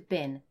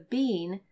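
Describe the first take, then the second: First: The word is said in a reduced form. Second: The word is said in its full form.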